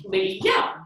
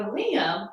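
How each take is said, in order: First: "Liam" split as LEE, YUM, rising on the second; one beat per syllable. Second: Said in the usual way. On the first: Shown as a demonstration. Teacher leading two knee ups, "Liam" split into two beats. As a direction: stretch LEE, then pop YUM in "Liam". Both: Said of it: "Liam also has two syllables".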